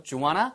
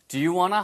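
First: 'Do you' squeezed to one syllable like 'dyu'; reduced 'Do you'. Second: 'Do you' kept as two syllables, then 'wanna'; linked question with rising end; two-word 'Do you'. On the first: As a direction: swallow 'you' in 'Do you wanna'. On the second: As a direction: keep 'you' audible in 'Do you wanna'. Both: Shown as a demonstration. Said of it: "Do you가 do처럼 들리기도 합니다".

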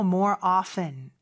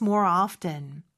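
First: OFTEN said with a silent t, "offen"; often without T. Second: OFTEN said with the t sounded, "off-ten". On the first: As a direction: drop the t in "often". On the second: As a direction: pronounce the t in "often". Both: Shown as a demonstration. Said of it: "발음은 두 가지가 있고요".

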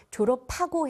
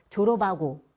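First: 졸업하고 with a clear 파; aspirated linking. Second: Dialect unaspirated. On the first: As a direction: say 졸업하고 as 조러파고. (졸업하고를 조러파고로) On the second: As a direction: say 졸업하고 as 조러바고. (졸업하고를 거센소리 없이 조러바고로) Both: Shown as a demonstration. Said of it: "해야 되는데".

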